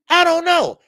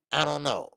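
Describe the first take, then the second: First: Sudden high, loud outburst; exploding shout. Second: Said in the usual way. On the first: Real, not acted. Annoyed host shouting at the referee question. Same question asked again, now erupting.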